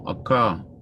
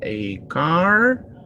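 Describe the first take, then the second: First: The final R sound is dropped. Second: The final R sound is pronounced.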